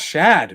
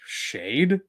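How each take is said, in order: First: The vowel is short, like in 'bad'. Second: The vowel is long, like in 'made'. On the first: The speaker calls it right. "It's Shad, man" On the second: The speaker calls it wrong. "there is no E in the end"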